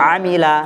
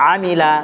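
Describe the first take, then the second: No difference in how they are said.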